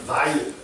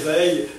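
First: The name is pronounced in a German way. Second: The name is pronounced in a French way. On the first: This refers to Hermann Weyl. "So I try to say it in a very German way" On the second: This refers to André Weyl. "As if it were a French word"

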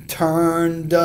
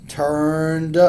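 The two takes are said the same way.

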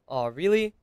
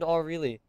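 First: It sounds worried and concerned. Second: It sounds flat and unconcerned.

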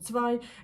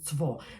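First: Northern form, ending in an 'ai' diphthong. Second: Bavarian form, ending in an 'o' vowel. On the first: "Німець Гамбурга вам скаже цвай" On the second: "Якщо то буде німець з Баварії, з Мюнхену, наприклад, то він скаже «цво»"

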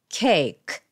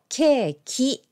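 First: The word ends with a bare k sound. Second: The word ends with an added vowel sound. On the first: The speaker calls it right. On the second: The speaker calls it wrong. "カタカナ英語のケーキじゃなくて"

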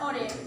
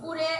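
First: The first vowel sounds like 'o'. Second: The first vowel sounds like 'u'. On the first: This is the standard form. "প্রমিত উচ্চারণ" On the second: This is the regional dialect form. "আঞ্চলিক শব্দ"

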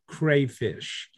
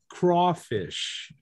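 First: The first syllable sounds like 'cray'. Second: The first syllable sounds like 'craw'. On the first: This is how most Americans say it. The speaker calls it wrong. "Everybody in America pronounces that word the way it's spelled" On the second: This is how people in Louisiana say it. The speaker calls it right. "We pronounce it crawfish"

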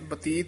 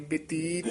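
First: The first syllable has an 'a' vowel. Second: The first syllable has an 'i' vowel. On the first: The speaker calls it wrong. "ਬਤੀਤ ਨਹੀਂ ਕਹਿਣਾ" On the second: The speaker calls it right. "ਬਤੀਤ ਇਸ ਤਰ੍ਹਾਂ ਬੋਲਣਾ ਬੱਬੇ ਦੀ ਸਿਹਾਰੀ ਨਾਲ"

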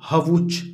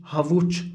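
The two takes are said the same way.

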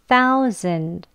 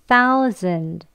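The two takes are said the same way.

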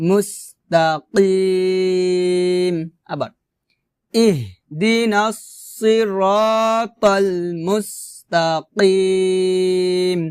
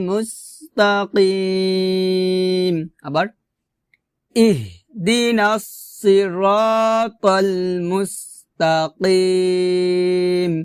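No difference in how they are said.

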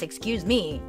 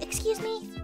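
First: It is said rudely, like a bully. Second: It is said politely and hesitantly.

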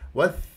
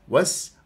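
First: The consonant is a lisped th sound. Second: The consonant is a hissing s sound. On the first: The speaker calls it wrong. "صارت وث" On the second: The speaker calls it right. "ها هي وس"

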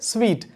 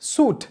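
First: The word sounds like 'sweet'. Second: The word sounds like 'suit'. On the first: The speaker calls it right. "idanude right pronunciation vandu sweet" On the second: The speaker calls it wrong. "adha suit nu namba sollakudadhu"

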